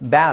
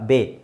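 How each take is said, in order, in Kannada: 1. ಇದನ್ನು 'bya' ಸ್ವರದಲ್ಲಿ ಹೇಳಲಾಗುತ್ತದೆ. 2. ಇದನ್ನು 'bay' ಸ್ವರದಲ್ಲಿ ಹೇಳಲಾಗುತ್ತದೆ. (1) "ಬ್ಯಾ ಅಲ್ಲ"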